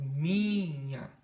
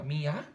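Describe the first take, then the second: First: "minha" with a very long, strong MI, MIII-nha; stress on MI. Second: "minha" with the last syllable stressed and rising, mi-NHA. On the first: Teacher showing it is the first, drawn-out MI in "minha". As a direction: stretch the first syllable of "minha" right out. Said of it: "É a primeira". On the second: Teacher asking "Mi ou nha?", stress moved to the end of "minha". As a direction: push the end of "minha" up like a question. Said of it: "Mi ou nha?". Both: Shown as a demonstration.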